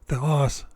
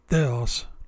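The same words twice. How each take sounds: First: The stress is on the second syllable. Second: The stress is on the first syllable. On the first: The speaker calls it right. "The omicron is stressed, so the word is pronounced theos" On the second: The speaker calls it wrong. "and not theos"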